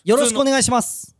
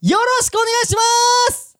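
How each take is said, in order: First: It is said in a plain, ordinary voice. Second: It is said with a strongly raised, heightened voice.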